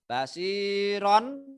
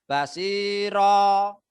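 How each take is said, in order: First: The word ends with an n sound. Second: The word ends on a long open vowel. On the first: This is how the word is written. "Tulisannya basiron" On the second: This is how the word is read when stopping. "dibaca basiro"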